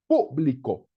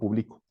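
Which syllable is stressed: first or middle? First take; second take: first; middle. First: The stress is on the first syllable. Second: The stress is on the middle syllable. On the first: The speaker calls it right. "la cosa pública es con acento en la U" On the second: The speaker calls it wrong.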